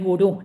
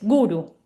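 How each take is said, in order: First: The stress is on the last syllable. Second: The stress is on the first syllable. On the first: The speaker calls it wrong. "muchos dicen gurú. No, no es gurú" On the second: The speaker calls it right. "es guru"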